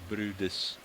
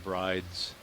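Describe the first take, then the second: First: The name is said with two syllables. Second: The name is said with one syllable. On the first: This is how the name is actually pronounced. "the pronunciation of that whale as Brudis" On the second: This is how the spelling suggests it is pronounced. "rather than Brides from the spelling"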